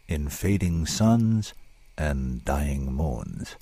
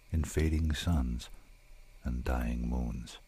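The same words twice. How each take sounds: First: Drawn-out, slow announcement of the title; slow, deliberate title; slow title reading. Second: Slow and softer, dying away; hushed, slow poem ending; fading poem close. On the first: Shown as a demonstration. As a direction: let the title linger. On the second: Acted. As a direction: let the last line fade out. Closing line of the poem, fading.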